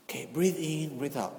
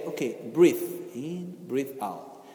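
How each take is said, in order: First: Softer repeat of the breathing cue, fading away; calming breathing cue. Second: Slow, soft guiding voice, trailing lower and quieter; calm an angry person down gently; calming breathing cue. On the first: Teacher repeats the cue to the resisting person: soft coaxing. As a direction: coax them gently to breathe. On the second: Teacher soothes an angry visitor: slow soft breathing cue. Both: Shown as a demonstration. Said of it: "I look to the person talking to me and I say".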